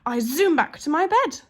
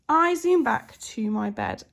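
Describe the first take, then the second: First: It is read with lively expression. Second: It is read flatly, without expression.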